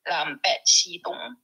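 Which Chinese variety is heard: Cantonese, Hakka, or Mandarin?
Hakka. The words are read in Hakka pronunciation. "in another dialect, which is Hakka"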